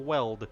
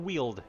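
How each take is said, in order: First: The vowel is a short 'e' sound. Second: The vowel is a long 'ee' sound. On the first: The speaker calls it right. "it's the Weld" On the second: The speaker calls it wrong. "it's not pronounced the Wield"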